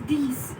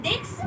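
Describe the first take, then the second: First: THESE as deess, low falling; correct French dix. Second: THIS as English dicks, with KS, rising; mispronounced dix. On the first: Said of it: "It's these". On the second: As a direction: say dix wrongly as DIKS. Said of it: "It's not this". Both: Shown as a demonstration.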